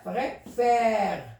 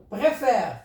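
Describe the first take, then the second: First: "préfère" split as pré, then a long fère; syllable by syllable. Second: Said in the usual way. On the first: Shown as a demonstration. Teacher showing the grave accent, "préfère" slowly split in two. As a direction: stretch the open è at the end of "préfère".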